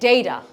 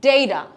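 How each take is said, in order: First: It is said with an American accent. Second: It is said with an American accent.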